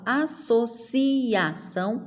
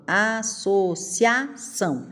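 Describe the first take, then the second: First: "associação" as a-so-CI-A-ção; split vowels. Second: "associação" as a-so-CIA-ção; joined vowels. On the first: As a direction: pull ci and a apart. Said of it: "Eu falo". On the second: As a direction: say cia as one syllable, slowly. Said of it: "ou eu falo". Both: Shown as a demonstration.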